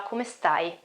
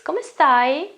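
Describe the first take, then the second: First: The voice stays flat at the end. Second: The voice rises at the end.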